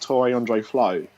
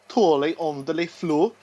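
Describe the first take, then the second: First: The name is said with an English accent. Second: The name is said with a Norwegian accent.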